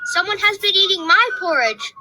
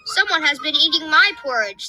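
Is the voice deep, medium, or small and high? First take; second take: small and high; medium. First: It is said in a wee, small, high voice. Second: It is said in a middle-sized, medium voice.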